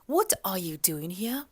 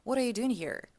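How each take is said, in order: First: The final R in 'here' is dropped. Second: The final R in 'here' is pronounced. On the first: "Первое, что мы слышим, это отсутствие R в конце" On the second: "В стандартном формате это бы звучало"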